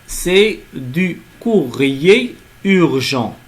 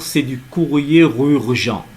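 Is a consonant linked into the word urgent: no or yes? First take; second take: no; yes. First: No consonant links into the final word. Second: A consonant links into the final word. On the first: The speaker calls it right. "il n'y a pas de liaison" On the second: The speaker calls it wrong. "On ne dit pas... c'est faux"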